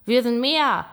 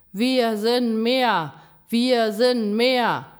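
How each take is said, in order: First: Loud, high single exclamation; rallying call. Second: Slow, loud, high shouted chant; crowd chant. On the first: Fox rallies the frightened animals, loud call. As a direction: speak up to rally everyone. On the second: Animals close in on Gram, shouted chant. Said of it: "schrien sie im Chor". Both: A narrator's reading.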